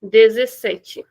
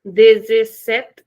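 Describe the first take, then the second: First: Slow Brazilian dezessete; Brazilian Portuguese. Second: Dezessete slow, final e dropped; slow European dezessete; European Portuguese. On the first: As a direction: end on tchi, Brazilian way. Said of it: "In Brazilian, we'll say dezessete". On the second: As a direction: clip the last vowel, European way. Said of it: "In European, we'll say dezessete". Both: Shown as a demonstration.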